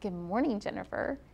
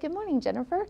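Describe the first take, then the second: First: The greeting sounds cold and mean. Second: The greeting sounds warm and kind. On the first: The listener does not feel important. The speaker calls it wrong. "I used a mean voice" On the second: The listener is made to feel welcome. The speaker calls it right. "I would model it with my nice voice"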